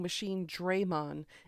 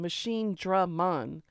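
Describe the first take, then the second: First: The first vowel of the name rhymes with 'day'. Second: The first vowel of the name is as in 'drag'. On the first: The speaker calls it wrong. "They were saying Machine Draymon" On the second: The speaker calls it right. "It's Dragon. Machine Dragon"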